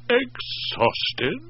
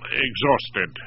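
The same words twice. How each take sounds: First: Higher, rising echo with a hint of doubt; mildly suspicious. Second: Said in the usual way. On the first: A narrator's reading. Wife echoing the excuse, a little suspicious. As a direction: question the word exhausted. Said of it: "a little suspicious".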